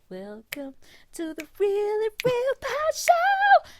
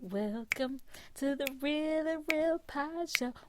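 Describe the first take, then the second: First: It is said loudly and energetically. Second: It is said at medium loudness.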